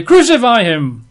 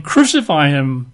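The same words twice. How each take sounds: First: Crucify him shouted higher and louder; crowd shout. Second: Said in the usual way. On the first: Retold or imitated. Crowd yelling at Pilate for crucifixion, mock shout. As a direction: mob cry Crucify him, hammed-up. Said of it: "they cried out the more exceedingly". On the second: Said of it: "they're saying".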